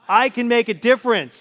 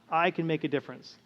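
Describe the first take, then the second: First: It is said excitedly, with energy. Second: It is said calmly and plainly.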